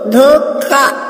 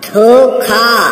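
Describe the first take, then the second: First: The consonant is said with little breath, unaspirated. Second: The consonant is said with strong breath, aspirated. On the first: The speaker calls it wrong. "अशुद्ध" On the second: The speaker calls it right. "शुद्ध"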